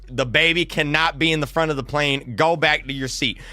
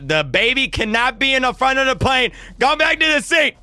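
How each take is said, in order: First: Said in the usual way. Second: Imitating an insistent flight attendant, pitched high; exasperated order. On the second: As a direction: raise the pitch sharply as the order escalates. Attendant repeats order, escalating.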